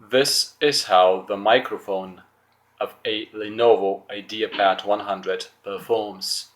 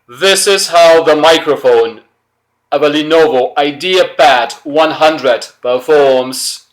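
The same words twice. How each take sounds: First: It is spoken at a normal conversational loudness. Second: It is spoken very loudly, with a strongly raised voice. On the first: "with my normal voice, as if I'm talking to someone over the phone" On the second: "now I'm really gonna raise my voice"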